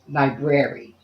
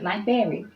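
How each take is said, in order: First: The r after the b is clearly pronounced. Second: The r after the b is dropped. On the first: The speaker calls it right. "it's br- library" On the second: The speaker calls it wrong. "It's not library"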